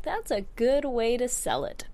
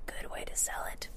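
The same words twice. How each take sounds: First: Said in the usual way. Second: A soft, breathy aside in a whisper. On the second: Shown as a demonstration. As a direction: mutter it to yourself under your breath.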